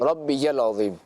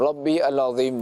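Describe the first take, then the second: First: The words are joined with a y sound. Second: The words are said separately, as rabbi al. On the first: The speaker calls it right. "रब्बियल अज़ीम है" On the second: The speaker calls it wrong. "रब्बी अल अज़ीम नहीं"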